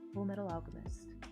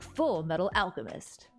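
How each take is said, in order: First: It is said in a sad tone. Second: It is said in an excited tone.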